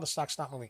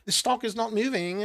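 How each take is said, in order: First: It is said in the speaker's own American accent. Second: It is said in a put-on British accent.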